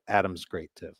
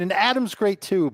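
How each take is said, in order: First: It sounds flat and unenthusiastic. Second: It sounds warm and enthusiastic.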